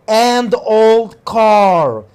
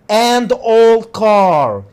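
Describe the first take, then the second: Both takes have the same delivery.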